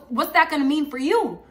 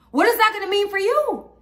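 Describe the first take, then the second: First: Said in the usual way. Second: Higher, louder, with stress on "is"; pressing repeat. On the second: Retold or imitated. To her viewers, pressing the question home with a higher, louder push. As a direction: lean hard on "is" and push it up.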